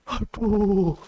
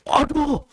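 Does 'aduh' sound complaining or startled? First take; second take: complaining; startled. First: The word sounds drawn-out and complaining. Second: The word sounds sudden and startled. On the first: The speaker is lamenting a hardship. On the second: The speaker is surprised.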